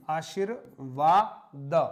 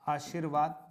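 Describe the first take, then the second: First: आशीर्वाद stretched out slowly and louder; slow emphatic dictation. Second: Said in the usual way. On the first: Shown as a demonstration. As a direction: drag out आशीर्वाद syllable by syllable, firmly. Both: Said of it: "बहुत महत्वपूर्ण शब्द है".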